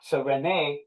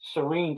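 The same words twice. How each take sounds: First: It is pronounced the older Latin way. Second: It is pronounced the modern English way. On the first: This is how it was said in Latin. "Cyrene in the Latin" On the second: This is how it is said today. "Cyrene today"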